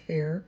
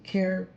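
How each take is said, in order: First: The word begins with a breathy H sound. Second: The word begins with a hard K sound. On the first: The speaker calls it right. "it's Hair" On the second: The speaker calls it wrong. "it's not really pronounced Care"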